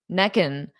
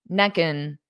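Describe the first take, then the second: The two takes are said the same way.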